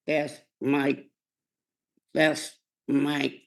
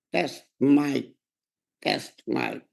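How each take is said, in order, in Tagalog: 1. Sinasabi ito sa karaniwang boses ng nagsasalita. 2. Sinasabi ito sa ginayang boses ng mangangaral.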